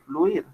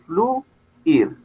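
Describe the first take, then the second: First: The vowels are joined into one syllable. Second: The vowels are split into two syllables. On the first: "puede ser una palabra monosílaba" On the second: "puede tener como tal dos sílabas"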